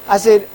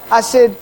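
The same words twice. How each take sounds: The two takes are said the same way.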